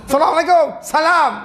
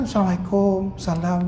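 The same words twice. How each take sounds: First: High, shouted salam; rough greeting. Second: Gentle greeting. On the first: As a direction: shout the greeting harshly, demonstrating rudeness. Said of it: "kau ni kasar". (salam kasar, menjerit) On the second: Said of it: "lemah lembut". (salam lemah lembut) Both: Shown as a demonstration.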